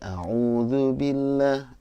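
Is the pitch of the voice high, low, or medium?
low. It is recited at a lower pitch.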